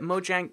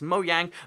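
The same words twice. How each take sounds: First: The J is pronounced like an English J. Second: The J is pronounced like a Y sound. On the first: This is an equally valid alternative way of saying it. "But if you want to call it Mojang, you can" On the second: This follows the Swedish way of saying it. "the J is pronounced like a Y sound, and that's why it's Mojang"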